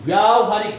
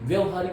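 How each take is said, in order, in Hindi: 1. 'vy' के बाद का स्वर लंबा है, मुँह खुला रहता है। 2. 'vy' के बाद का स्वर छोटा है। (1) "व्यावहारिक मुंह खोल के बोलेगा" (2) "व्यवहारिक नहीं"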